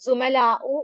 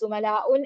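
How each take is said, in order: First: The word ends on a plain u vowel. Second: The word ends with an added n sound. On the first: The speaker calls it right. "മാത്രമാണ് പറയേണ്ടത്" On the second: The speaker calls it wrong. "എന്ന് പറയരുത്"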